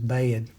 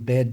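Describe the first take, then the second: First: It has a drawn-out gliding two-part vowel. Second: It has one short plain vowel. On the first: "now it's two. And it's two vowel sounds" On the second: "it's not just one syllable"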